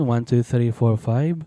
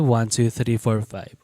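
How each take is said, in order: First: The voice sounds dull and muffled. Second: The voice sounds crisp and detailed. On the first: "Nawalan ng details yung ating microphone, naging muffled" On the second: "mas naging detailed yung ating audio"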